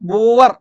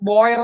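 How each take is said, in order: First: The word is said with an 'oo' vowel. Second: The word is said with an 'oy' vowel. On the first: This is the Malayalam way of saying the name. "ബൂവർ എന്ന് മലയാളത്തിൽ ഉച്ചരിക്കുന്നത്" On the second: This follows the English spelling of the name. "നമ്മൾ ബോയർ എന്ന് എഴുതുന്നത്"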